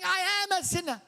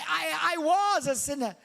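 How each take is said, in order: First: Am said high and pressed, falling; stress on am. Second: Said in the usual way. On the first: Shown as a demonstration. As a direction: lean hard on am. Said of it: "He's saying". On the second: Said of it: "He doesn't say".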